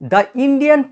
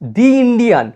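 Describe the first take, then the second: First: 'The' is pronounced with a short 'thuh' vowel. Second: 'The' is pronounced with a long 'thee' vowel. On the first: The speaker calls it wrong. "আমি এখানে explain করার সময় দা বলেছি" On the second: The speaker calls it right. "উচ্চারণটা actually হবে দি"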